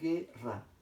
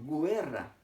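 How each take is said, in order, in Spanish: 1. Ningún sonido 'w' sigue a la g. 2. Un sonido 'w' sigue a la g. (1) "No pronuncio la U" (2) "yo no digo guerra"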